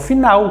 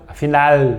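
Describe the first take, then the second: First: The final L is pronounced like a U. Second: The final L is pronounced as a clear L. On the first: "como se fosse um olho no final" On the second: "ele deve ser pronunciado como no espanhol"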